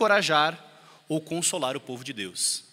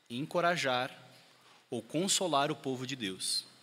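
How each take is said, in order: First: It is said at normal speaking speed. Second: It is said slowly and calmly.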